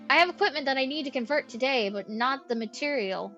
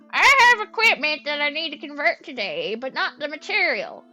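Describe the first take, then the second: First: It is read in the speaker's normal voice. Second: It is read in a put-on elderly man's voice.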